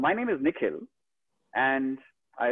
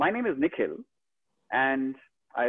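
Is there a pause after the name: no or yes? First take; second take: yes; yes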